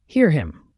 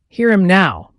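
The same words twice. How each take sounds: First: Said in the usual way. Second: Louder and higher, a full shout. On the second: A narrator's reading. Peleg to Bildad, mocking his piety, shouting. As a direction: belt it out mockingly. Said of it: "Peleg shouted".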